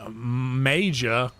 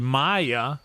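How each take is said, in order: First: The middle consonant sounds like j in jam. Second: The middle consonant sounds like y in yes. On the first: The speaker calls it wrong. "I don't know why it just seemed like Maja" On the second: The speaker calls it right. "who is actually Maya"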